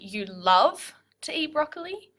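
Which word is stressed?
love. The stress falls on the word 'love'. "The second one would be"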